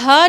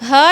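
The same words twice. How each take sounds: First: The h sound is a plain, light h. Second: The h is breathy, pushed from the throat. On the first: The speaker calls it wrong. "इसको हा नहीं पढ़ना है, हा नहीं, ये हा बिल्कुल गलत है" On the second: The speaker calls it right. "हलक के दरमियानी हिस्से से अदा होती है"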